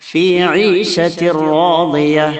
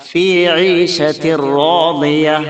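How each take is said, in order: Both takes have the same delivery.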